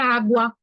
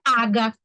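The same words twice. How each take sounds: First: The u after the g is heard. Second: The u after the g is silent. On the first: The speaker calls it right. "é água" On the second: The speaker calls it wrong. "Não é água"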